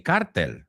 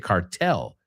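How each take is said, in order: First: The word is said with Spanish pronunciation. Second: The word is said with English pronunciation. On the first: "I know you say cartel, right? You say in Spanish" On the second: "we say cartel"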